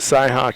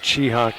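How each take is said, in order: First: The name begins with a 'sy' sound. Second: The name begins with a 'chee' sound. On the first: This is how it is said locally. "They pronounce it Cyhawk here" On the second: This is how it is said where the speakers come from. "We pronounce it Cheehawk back where we come from"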